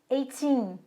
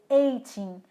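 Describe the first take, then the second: First: The stress is on the last syllable. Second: The stress is on the first syllable. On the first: The speaker calls it right. "a sílaba tônica está no teen" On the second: The speaker calls it wrong. "não é"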